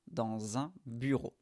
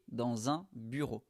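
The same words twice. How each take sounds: The two takes are said the same way.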